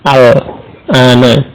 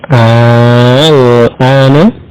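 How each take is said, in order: First: The first vowel is short. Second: The first vowel is drawn out long. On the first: It means now. "dibaca pendek" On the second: It asks whether it is now. "maka dibaca panjang"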